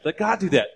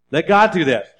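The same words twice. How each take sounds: First: Gentler pulpit echo of the same line. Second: Forceful pulpit stress on GOD; emphatic. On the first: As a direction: ease the repeat down after the push. Repeat said more softly. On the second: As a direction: Let God do that with GOD punched loud and high, falling at the end. First take of repeated exhortation. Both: Acted.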